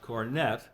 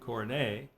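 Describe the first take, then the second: First: The word has a British English pronunciation. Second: The word has a French pronunciation. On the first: The speaker calls it wrong. "which is how the British do it" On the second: The speaker calls it right. "I think it should be given the French pronunciation"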